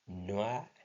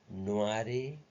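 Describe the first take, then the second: First: The final e is silent. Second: A final e vowel is sounded. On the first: The speaker calls it right. "some word which end in the E alphabet, it doesn't pronounce" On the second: The speaker calls it wrong. "On ne peut pas dire"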